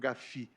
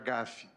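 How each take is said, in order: First: It is pronounced with a French accent. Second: It is pronounced with a Portuguese accent. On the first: "a moda francesa" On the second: "prefiro pronunciar GAFI"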